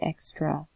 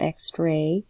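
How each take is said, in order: First: The final vowel is reduced to uh. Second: The final vowel is a full vowel. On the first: The speaker calls it right. "we just say extra" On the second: The speaker calls it wrong. "We do not say extra"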